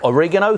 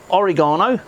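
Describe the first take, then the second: First: It is said in an American way. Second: It is said in a non-American way.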